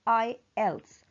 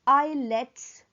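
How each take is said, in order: First: It is said as eye-els, with E first. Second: It is said as eye-lets, with L first. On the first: The speaker calls it right. "ई पहले है, एल बाद में है" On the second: The speaker calls it wrong. "इस लफ्ज को आईलेट्स नहीं कहते"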